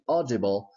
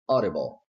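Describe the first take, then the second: First: The middle D is a full, clear D. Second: The middle D is a quick flap. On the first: "it is correct, but it's not commonly heard in the American variant" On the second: "it's much more common to hear audible"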